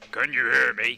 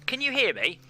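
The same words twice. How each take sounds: First: It is said in a low-pitched voice. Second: It is said in a normal-pitched voice. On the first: "a low voice" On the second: "a normal voice"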